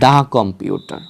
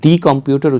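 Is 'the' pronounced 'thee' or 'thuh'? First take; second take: thuh; thee. First: 'The' is said with a short 'thuh' vowel. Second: 'The' is said with a long 'thee' vowel. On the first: The speaker calls it right. "আপনারা করবেন হচ্ছে দা computer" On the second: The speaker calls it wrong. "আপনারা কিন্তু দি computer উচ্চারণ করবেন না"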